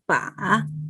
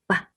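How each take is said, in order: First: The pitch dips down and then rises. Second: The syllable is short and light, unstressed. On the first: "Third tone is fall down and rising" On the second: "the natural tone is a light ba"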